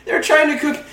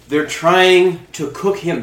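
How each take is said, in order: First: High-pitched victim voice; frightened escapee. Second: Said in the usual way. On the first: Acted. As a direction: say it high, as the captive. Victim voice, then own character.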